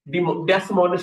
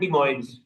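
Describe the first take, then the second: First: The name is said with an s sound. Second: The name is said without an s sound. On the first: This is how the speaker used to say it. The speaker calls it wrong. "डेसमोनिस में कहता था" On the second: This is how the name actually is. The speaker calls it right. "लेकिन है डिमोइन्स"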